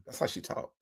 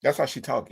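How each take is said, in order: First: Whispered aside. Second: Said in the usual way. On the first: Shown as a demonstration. A whispered aside to the audience, hushed. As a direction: whisper "That's how she talk" under the breath.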